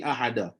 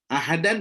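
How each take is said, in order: First: The word ends with a long vowel. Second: The word ends with an n sound. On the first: The reciter stops on this word. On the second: The reciter continues without stopping.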